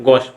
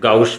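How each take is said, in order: First: The vowel is a single plain 'o' sound. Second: The vowel glides from 'a' toward 'u'. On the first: This is the proper pronunciation. "त्याचा उच्चार कसा पाहिजे ते गॉश" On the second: This follows the spelling to help memorize it. "Spelling पाठ करण्याच्या अँगलने त्याला गाऊश म्हणू शकतो"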